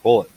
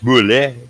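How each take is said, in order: First: The word has a plain English pronunciation. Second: The word has a French-style pronunciation. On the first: "I think it's just bullet" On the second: "Or if you want to be French"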